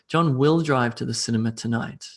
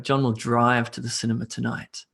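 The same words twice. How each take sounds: First: The stress falls on the word will. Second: The stress falls on the word drive. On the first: He is definitely going, despite doubts. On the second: He goes by car, not by bicycle.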